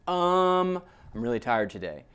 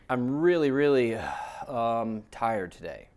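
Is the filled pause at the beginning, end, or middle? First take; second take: beginning; middle. First: A filled pause comes before the sentence. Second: A filled pause comes inside the sentence.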